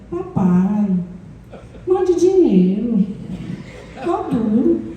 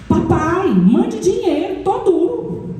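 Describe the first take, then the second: First: It is read in a gentle, pleading tone. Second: It is read in a rude, demanding tone.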